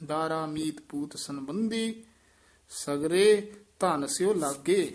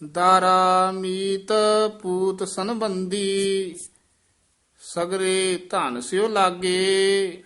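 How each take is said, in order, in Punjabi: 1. ਸ਼ਬਦ sagre ਤੇ ਵਾਧੂ ਜ਼ੋਰ ਦਿੱਤਾ ਗਿਆ ਹੈ। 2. ਸ਼ਬਦ sagre ਤੇ ਕੋਈ ਖ਼ਾਸ ਜ਼ੋਰ ਨਹੀਂ ਹੈ।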